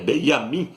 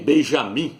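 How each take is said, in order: First: The middle consonant is a 'y' sound. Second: The middle consonant is a 'zh' sound. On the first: The speaker calls it right. "é Benjamin Nataniel" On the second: The speaker calls it wrong. "não é nem Benjamim, porque no hebraico não tem a letra J"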